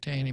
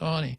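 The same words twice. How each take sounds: First: The name is said as its spelling suggests. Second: The name is said differently from its spelling. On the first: The speaker calls it wrong. "I rather pronounce it Taney because it looks like Taney" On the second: The speaker calls it right. "but it's actually pronounced Taney"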